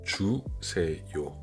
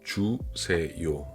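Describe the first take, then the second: No difference in how they are said.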